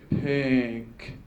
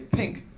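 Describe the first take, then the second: First: The word is lower-pitched and drawn out slowly. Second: The word is high-pitched and said quickly. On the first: It is the real word to type. "the actual words are longer and uh, on a slow tone" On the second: It is a background decoy word. "the background words are high a high tone and they say it real quick"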